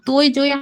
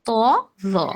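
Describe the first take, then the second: First: Each letter name ends in an 'oy' glide. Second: Each letter name ends in a plain vowel. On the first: This is how Urdu or Hindi speakers say it. The speaker calls it wrong. "তৈ জই আসলে উর্দু বা হিন্দির আহ, ওই ওই ধরনের উম, ওইগুলো ভাষার হলো accent" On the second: This is how it is said in Arabic. The speaker calls it right. "কিন্তু আরবিতে হচ্ছে ত জ"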